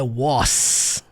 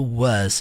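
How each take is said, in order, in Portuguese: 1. A palavra termina com som de s chiado. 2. A palavra termina sem som de s chiado. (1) "não é was, com som do S, não" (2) "som do was"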